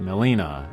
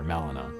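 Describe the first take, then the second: First: The name has a marked stressed syllable. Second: The name is said with flat, even pitch. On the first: The speaker calls it wrong. "not Melina" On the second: The speaker calls it right. "the flatter Melina"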